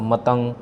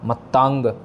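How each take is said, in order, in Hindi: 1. दूसरा स्वर छोटा है, हिंदी के ढंग से। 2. दूसरा स्वर लंबा है और उस पर ज़ोर है, पंजाबी के ढंग से। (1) "हिंदी में बिल्कुल ही जैसे होता है वैसे ही हम बोल देते हैं" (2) "इस पर हमने प्रेशर देना है, भार देना है"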